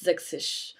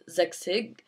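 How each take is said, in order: First: The word uses a sh sound instead of ch. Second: The word uses a soft standard German ch sound. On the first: This is how people say it in the local dialect. "in Baden-Württemberg they always do a lot of like sh" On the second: This is the standard German form. "instead of sechzig"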